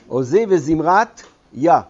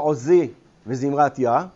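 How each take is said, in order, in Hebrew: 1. יש הפסקה אחרי "וזמרת", לפני "יה". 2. "וזמרת" ו"יה" נאמרות ביחד, ללא הפסקה. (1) "מהי החלוקה של הצלה הראשונה?" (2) "לא עוזי וזמרת יה, אולי היינו באופן טבעי קוראים כך"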